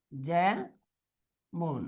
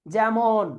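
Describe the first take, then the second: First: যেমন low and soft, as "jæ ... mon"; syllable by syllable. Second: Said in the usual way. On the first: Shown as a demonstration. Teacher dictating the answer, syllable by syllable. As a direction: pause long between the two syllables of যেমন.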